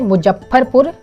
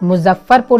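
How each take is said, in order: First: The name is said with rustic regional pronunciation. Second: The name is said with standard Hindi pronunciation. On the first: The speaker calls it wrong. "जानबूझ करके गलत डिक्शन के साथ बोलना पड़ा था" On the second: The speaker calls it right. "सही डिक्शन के साथ नहीं बोला था"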